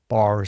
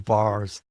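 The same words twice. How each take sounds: First: It is said in the speaker's own non-American accent. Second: It is said in an American accent.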